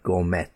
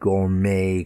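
First: The final T is pronounced. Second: The final T is silent. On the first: The speaker calls it wrong. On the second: The speaker calls it right.

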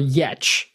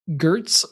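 First: The surname is said in its native way. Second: The surname is said in an anglicized way. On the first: The speaker calls it right. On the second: The speaker calls it wrong.

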